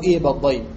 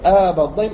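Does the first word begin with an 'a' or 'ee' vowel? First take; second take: ee; a. First: The first word starts with a long 'ee' vowel. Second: The first word starts with a long 'a' vowel.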